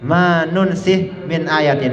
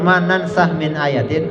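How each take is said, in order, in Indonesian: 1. Kata kerja itu dimulai dengan 'nun' dan diakhiri dengan 'sikh'. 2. Kata kerja itu dimulai dengan 'nan' dan diakhiri dengan 'sakh'. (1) "bidomin nun wa kasri sin" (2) "bifathin nun"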